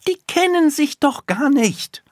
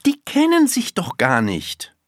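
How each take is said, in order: First: Put-on very high, loud, emphatic little girl; forceful, pitched right up; energetic insistence. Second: Put-on high child's voice, objecting; pitched-up, mildly indignant; insistent little girl. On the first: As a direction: hammer the point home as a child. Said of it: "sagt sie energisch". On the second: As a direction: state the objection as a small girl. Girl argues, first take. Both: A narrator's reading.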